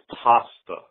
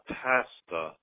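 First: The first vowel is an open 'ah' or 'o' sound. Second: The first vowel is a flat 'a' as in 'cat'. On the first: The speaker calls it right. "It's pasta" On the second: The speaker calls it wrong. "not pasta"

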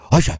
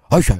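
First: The name is said like a dog's bark. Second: The name is said like a dog's bark.

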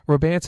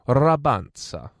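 First: The name is said plainly, without an Italian flavour. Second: The name is said with an Italian-sounding flourish. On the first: "Rabanza doesn't sound too Italian" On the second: "When you say it like that, it sounds a bit more"

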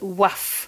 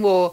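First: The name is said like waff, ending in f. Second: The name is said like waw, with no f. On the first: The speaker calls it wrong. "you definitely don't pronounce it Waff" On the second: The speaker calls it right. "It's Ben Waugh"

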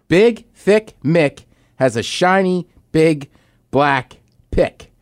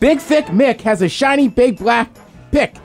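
First: It is said at a normal pace. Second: It is said fast.

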